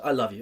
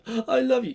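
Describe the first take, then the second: First: It is said in a plain, neutral way. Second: It is said in a sad way.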